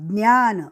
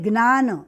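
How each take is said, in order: First: The first consonant cluster sounds like 'dny'. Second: The first consonant cluster sounds like 'gn'. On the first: This is how it is said in Maharashtra. "Maharashtra में ज्ञ का उच्चारण ज्ञान" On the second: This is how it is said in Gujarat. "Gujarat में ग्न बोला जाता है"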